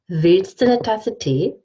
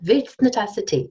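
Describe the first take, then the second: First: Du becomes a schwa and eine becomes ne. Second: Du merges into the t and eine becomes ne. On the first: "I say" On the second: "Or I even say willst eine Tasse Tee"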